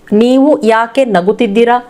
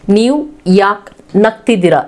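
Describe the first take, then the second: First: Every vowel, including 'u' in 'nagu', is pronounced. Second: Several vowels, including 'u' in 'nagu', are dropped.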